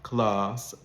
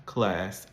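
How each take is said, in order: First: Class as clahss, long ah; Southern British class; British broad A. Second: Class with the flat a of cat; American flat A. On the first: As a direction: open the vowel of class to ah. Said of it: "Southern Standard British English". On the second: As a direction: keep class short and front. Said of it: "in General American English would be pronounced". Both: Shown as a demonstration.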